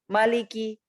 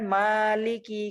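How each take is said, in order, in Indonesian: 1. Vokal setelah m itu pendek. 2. Vokal setelah m itu panjang. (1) "malikinya emang nggak mat" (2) "mimnya di sini matnya panjang"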